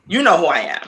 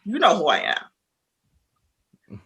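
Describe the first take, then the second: First: Said in the usual way. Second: "you know who I am" drawn out slowly, each word leaned on; slow emphatic. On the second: Retold or imitated. Telling the other woman off, slow and pointed. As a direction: spell it out slowly to her, word by word. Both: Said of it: "And I'm like".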